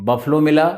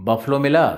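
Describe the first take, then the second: Both takes have the same delivery.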